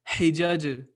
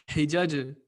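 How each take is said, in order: The two takes are said the same way.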